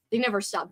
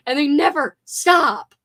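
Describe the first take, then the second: First: Said in the usual way. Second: Loud, high, drawn-out complaint; grumpy exasperation. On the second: Real, not acted. Streamer fed up with park music, grumpy exasperation. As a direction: wail it slowly, fed up and grumpy. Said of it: "you sound so old and grumpy".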